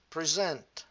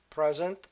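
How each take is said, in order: First: "present" loud, stressed pre-ZENT; verb-style "present" with end stress, falling; stress on second syllable. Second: "Present" loud, stressed PREZ-ent; noun-style "Present" with front stress; stress on first syllable. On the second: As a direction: punch the start of "Present". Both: Shown as a demonstration. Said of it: "different position of the stress".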